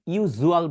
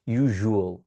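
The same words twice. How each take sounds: First: ইউজুয়াল with a plain z, "yu-zual"; old Z pronunciation. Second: ইউজুয়াল as "yu-zhual", lower; correct ZH sound. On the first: Teacher recalling learners' habit, z in ইউজুয়াল. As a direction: say ইউজুয়াল with z in place of zh. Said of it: "ইউজুয়াল বলতাম". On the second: Teacher modelling for learners, zh in ইউজুয়াল. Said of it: "জ হবে না, এখানে কি হবে". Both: Shown as a demonstration.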